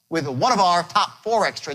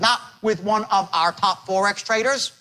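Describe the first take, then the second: First: It is said with lively, varied tone. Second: It is said in a flat monotone.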